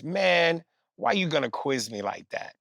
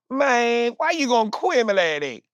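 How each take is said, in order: First: Said in the usual way. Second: Mumbled Southern slur. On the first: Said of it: "what [name] was attempting to say". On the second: Retold or imitated. Mocking the rapper's slurred Southern answer, high and mumbled. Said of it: "Here's what he said".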